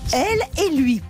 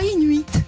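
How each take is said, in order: First: Each word is clearly and separately articulated. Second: The words are slurred together into one word. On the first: The speaker calls it right. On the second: The speaker calls it wrong. "pas inuit. Ça veut rien dire"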